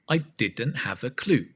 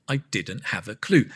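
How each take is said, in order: First: The words run together as one smooth sound. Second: The words run together as one smooth sound.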